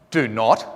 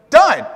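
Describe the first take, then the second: First: "Do not" as two separate words, lower; uncontracted form. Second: "Don't" as one short word, high and loud; contracted form. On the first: Lecturer showing what we don't say, fully separated. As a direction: pronounce "Do not" in full, unjoined. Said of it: "we don't say". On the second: Lecturer showing what we say, emphatically contracted. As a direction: punch out "Don't" as a single syllable. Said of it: "We say". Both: Shown as a demonstration.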